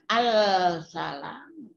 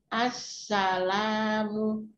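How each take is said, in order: First: The L is pronounced clearly before the S. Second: The L blends into a doubled S sound. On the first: The speaker calls it wrong. "bukan al-salam" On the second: The speaker calls it right. "ketika kita mengatakan assalamu"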